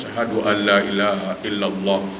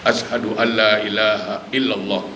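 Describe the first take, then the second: First: The long vowels are cut short. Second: The long vowels are held for two beats. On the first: The speaker calls it wrong. "Itu salah" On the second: The speaker calls it right. "Itu kan panjang dua harakat"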